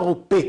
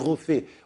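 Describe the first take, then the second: First: The middle consonant is a hard p sound. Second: The middle consonant is a soft f sound. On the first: The speaker calls it wrong. "On ne dit pas Ropé kol basar" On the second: The speaker calls it right. "on dit Rofé"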